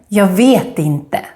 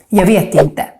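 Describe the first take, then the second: First: The phrase is said slowly and carefully. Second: The phrase is said quickly, running together. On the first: "Let's repeat it again" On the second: "if you say it faster, like we normally talk"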